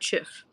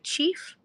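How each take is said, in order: First: The vowel is short, as in 'chiff'. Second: The vowel is long, as in 'chief'. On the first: "Is it chief or chiff?" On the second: "Is it chief or chiff?"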